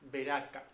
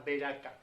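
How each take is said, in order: First: It is said as the Spanish transliteration, Beraka. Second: The same.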